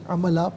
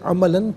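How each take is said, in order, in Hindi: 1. शब्द का अंत एक सादे स्वर से होता है। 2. शब्द का अंत n की ध्वनि से होता है। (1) "वफ़ की सूरत में अमला पढ़ा जाएगा" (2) "इसे अमलन पढ़ेंगे"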